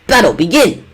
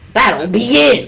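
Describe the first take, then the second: First: It is said in a put-on announcer voice. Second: It is said in a plain reading voice.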